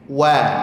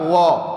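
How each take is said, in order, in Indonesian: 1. Bunyi w itu ringan, bibir direntangkan. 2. Bunyi w itu berat, bibir dibulatkan. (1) "senyumkan, tarik kedua sisi bibirnya"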